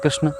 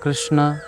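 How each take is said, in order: First: The word ends without a final vowel. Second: The word ends with a full final vowel. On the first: "वो भी ठीक नहीं।" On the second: "आकार पूरा बोलना पड़ेगा।"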